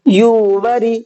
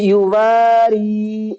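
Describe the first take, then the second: First: The wa syllable is kept short. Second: The wa syllable is drawn out long. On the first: The speaker calls it wrong. "युवरी गलत, वाव नहीं खींचा" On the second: The speaker calls it right. "ये युवारी सही है"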